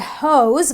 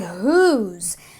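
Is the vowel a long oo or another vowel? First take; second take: another vowel; long oo. First: The vowel is not a long oo. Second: The vowel is a long oo sound. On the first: The speaker calls it wrong. "I don't say hose" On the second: The speaker calls it right. "which brings the oo sound"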